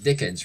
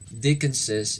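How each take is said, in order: First: The name ends without an extra syllable. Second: The name ends with an extra syllable. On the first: The speaker calls it right. "We would rather say it as Dickens" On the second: The speaker calls it wrong. "Can you pronounce it?"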